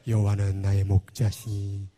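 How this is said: It is spoken in a low, deep voice. The speaker calls it right. "이 낮은 보이스가 좋아요"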